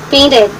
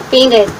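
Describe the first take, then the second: Both takes have the same delivery.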